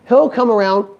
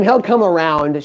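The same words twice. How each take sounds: First: Said in the usual way. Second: Reassuring wife. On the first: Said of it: "She had faith in me". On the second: Retold or imitated. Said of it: "She's like".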